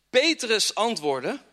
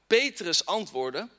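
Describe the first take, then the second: No difference in how they are said.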